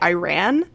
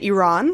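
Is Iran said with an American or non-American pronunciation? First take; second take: American; non-American. First: The word is said with an American pronunciation. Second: The word is said with a non-American pronunciation. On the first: "Or Americans say Iran" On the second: "I say Iran, which is not, like, the American pronunciation"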